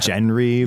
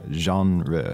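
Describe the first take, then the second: First: It is read with a hard English-style spelling sound. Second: It is said with a soft French-like sound. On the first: The speaker calls it wrong. "it looks like Genry or Genry" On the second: The speaker calls it right. "it has this really soft kind of French"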